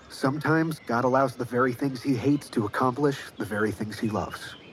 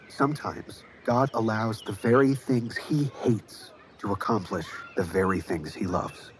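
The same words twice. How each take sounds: First: It is said at a normal pace. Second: It is said slowly.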